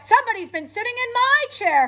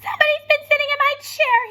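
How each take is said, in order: First: It is said in a loud, growly voice. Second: It is said in a high, squeaky voice.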